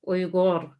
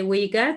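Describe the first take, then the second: First: It is said with the native Uyghur sounds. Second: It is said with common English sounds. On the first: This is how Uyghurs themselves say it. "we have Uyghur" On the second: This is how many outsiders say it. "a lot of people say Uyghur, that's fine"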